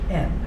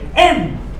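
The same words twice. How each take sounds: First: It is said in a plain, calm manner. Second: It is said with excited, raised energy. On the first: It names a regular variable. "Versus just a regular variable, you would just say something like n" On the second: It names a factorial. "you say n, because there's an exclamation point"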